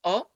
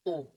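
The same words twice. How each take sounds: First: "O" with the mouth opened taller; short open O. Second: "O" with lips in a round, closed vowel; long rounded O. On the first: Teacher showing the difference between Os, short open O. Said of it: "on ouvre plus la bouche". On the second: Teacher showing the difference between Os, long rounded O. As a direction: say "O" like the closed French "eau". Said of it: "on forme plus un rond". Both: Shown as a demonstration.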